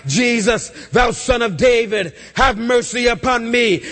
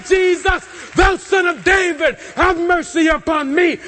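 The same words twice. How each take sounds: First: Said in the usual way. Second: High-pitched shouted plea; louder, vehement cry. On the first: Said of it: "he begins to cry out". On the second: Retold or imitated. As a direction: cry out over those silencing you. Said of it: "begins to cry out the louder".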